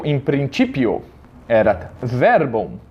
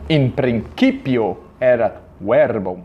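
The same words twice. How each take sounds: First: Church Latin, "principio" said prin-tchi-pio; ecclesiastical Latin. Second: "principio" with a hard k sound; slow classical Latin, "principio" said prin-ki-pio. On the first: Teacher shows the Roman C before I in church Latin. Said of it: "na pronúncia romana fica tch". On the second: Teacher contrasts the hard classical C with the church tch. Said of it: "E na pronúncia reconstituída". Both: Shown as a demonstration.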